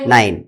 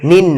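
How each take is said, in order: First: The vowel is an 'eye' sound. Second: The vowel is a short 'i' sound. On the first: The speaker calls it right. "আইয়ের উচ্চারণটা করতে হবে আই" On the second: The speaker calls it wrong. "নিন না"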